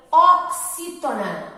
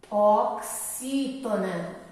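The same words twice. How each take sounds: First: "oxítona" slow, louder, OK-SÍ-tona; emphatic term. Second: "Oxítona" very slow and lower; slow dictation. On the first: Teacher naming the class of these words, slow and emphatic. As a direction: announce "oxítona" firmly and slowly. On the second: Teacher repeating the term for pupils, slow drawn-out dictation. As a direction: spell out "Oxítona" in long, low syllables. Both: Shown as a demonstration.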